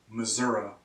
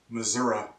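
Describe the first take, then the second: First: It is said in a regional American accent. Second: It is said in a regional American accent.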